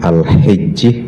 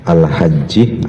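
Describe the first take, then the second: First: The first vowel is a close 'i' sound. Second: The first vowel is an open 'a' sound. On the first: "wa kasrihi" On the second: "bi fathi awalihi"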